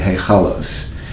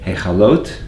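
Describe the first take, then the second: First: The word ends with an s sound. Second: The word ends with a t sound. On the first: "my forefathers from Russia and Eastern Europe would say"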